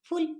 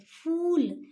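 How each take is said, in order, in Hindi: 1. स्वर छोटा बोला गया है। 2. स्वर देर तक बोला गया है। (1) "फूल ऐसे नहीं बोलेंगे" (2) "ऊ का उच्चारण देर तक होगा"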